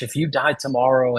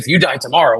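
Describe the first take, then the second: First: It is said slowly and gently. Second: It is said quickly and pushily. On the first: The speaker calls it right. "I slowed down" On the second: The speaker calls it wrong. "I didn't say"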